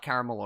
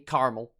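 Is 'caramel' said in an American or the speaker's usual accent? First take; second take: usual; American. First: It is said in the speaker's usual accent. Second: It is said in an American accent.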